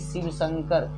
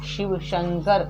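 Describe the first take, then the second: First: The words begin with an s sound. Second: The words begin with an sh sound. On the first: The speaker calls it wrong. "ना कि शिव शंकर" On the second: The speaker calls it right. "ना कि"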